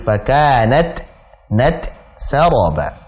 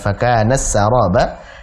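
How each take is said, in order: First: The t is clear and breathy before s. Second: The t merges into the following s sound. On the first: The speaker calls it right. "taknya tetap jelas dan ada hamasnya" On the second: The speaker calls it wrong. "Bukan fakanas saraba"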